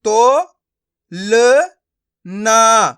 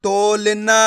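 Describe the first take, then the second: First: तो, ल, ना each sounded alone; syllable by syllable. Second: तोलना joined as one stretched word; blended word. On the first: Teacher breaking a word up for learners, syllable by syllable. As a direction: pause between तो, ल and ना. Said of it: "एक एक अक्षर का उच्चारण करके". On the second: Teacher showing learners the joined result, blended word. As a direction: run तो, ल, ना together as तोलना. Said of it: "तो मिलके बन जाएगा". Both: Shown as a demonstration.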